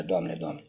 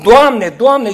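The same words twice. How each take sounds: First: A much lower, hushed Lord, Lord; the thief's hushed, sneaky plea; furtive plea. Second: Calls Lord, Lord out loud and high; a loud public plea. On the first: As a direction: mumble it like a thief afraid of being caught. Și hoțul spune. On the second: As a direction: cry it out for all to hear. Everyone cries Lord, Lord. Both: Retold or imitated.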